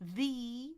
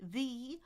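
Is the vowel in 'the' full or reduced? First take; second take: full; full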